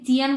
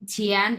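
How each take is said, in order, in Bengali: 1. প্রথম ব্যঞ্জনটি অল্পপ্রাণ, বাংলা ch-এর মতো। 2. প্রথম ব্যঞ্জনটি মহাপ্রাণ, বাংলা chh-এর মতো। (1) "তুমি চিয়ান বলতে পারবা না।" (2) "এটা ছিয়ান মানে হচ্ছে বাংলা ছ, ছয়ের উচ্চারণ।"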